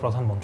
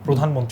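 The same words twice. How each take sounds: First: The first vowel sounds like short 'a'. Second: The first vowel sounds like 'o'. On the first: The speaker calls it wrong. "অনেকে বলে প্রধানমন্ত্রী, তাই না?" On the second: The speaker calls it right. "নিচে রফলা থাকলে maximum শব্দই ওকারান্ত হবে"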